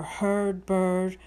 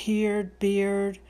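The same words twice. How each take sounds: First: "bird" for "beard", rhyming with "heard"; alternative rhyme pronunciation. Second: "heard" said as "heerd", rhyming with "beard"; archaic rhyme pronunciation. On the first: Teacher guessing at Shakespeare's accent, "beard" said like "bird". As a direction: say both "heard" and "bird" with the same er vowel. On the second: Teacher guessing at Shakespeare's accent, "heard" said like "heerd". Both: Shown as a demonstration. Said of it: "It could have been said".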